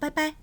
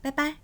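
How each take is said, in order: Both takes have the same delivery.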